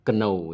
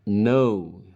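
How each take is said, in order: First: The word starts with a k sound. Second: The word starts with an n sound. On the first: The speaker calls it wrong. "bukan know ya" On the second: The speaker calls it right. "Mengucapkannya know"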